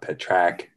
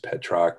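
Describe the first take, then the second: First: The second syllable sounds like 'rack'. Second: The second syllable sounds like 'rock'. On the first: The speaker calls it wrong. "not Petrack" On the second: The speaker calls it right. "it's Petrock"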